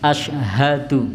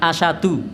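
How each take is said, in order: First: It is said with the h sound clearly audible. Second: It is said quickly with the h sound dropped. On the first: The speaker calls it right. "harusnya haknya diucapkan asyhadu" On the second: The speaker calls it wrong. "biasa diucapkan asyadu, nah, karena terlalu cepat"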